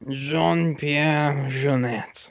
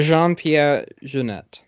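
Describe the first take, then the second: First: It is said with an exaggerated French accent. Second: It is said with a plain, unexaggerated accent.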